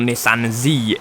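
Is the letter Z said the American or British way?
American. Z is said the American way, as zee.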